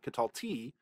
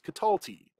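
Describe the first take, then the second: First: The stress is not on the middle syllable. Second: The stress is on the middle syllable. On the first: The speaker calls it wrong. "it's not Catalti" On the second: The speaker calls it right. "with that accent in the middle"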